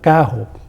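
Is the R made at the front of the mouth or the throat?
throat. The R is made at the back, in the throat. This is how it is said in the north. "o R posterior"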